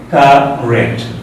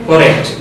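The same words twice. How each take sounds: First: The first vowel sounds like an A. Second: The first vowel sounds like an O. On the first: The speaker calls it right. "This is not O, but A" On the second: The speaker calls it wrong. "That is wrong. This is not O, but this is A"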